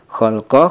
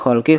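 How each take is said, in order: First: The word ends with an a vowel. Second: The word ends with an i vowel. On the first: The speaker calls it wrong. "Mana yang betul?" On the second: The speaker calls it right. "kita baca khalqi karena ala huruf jir"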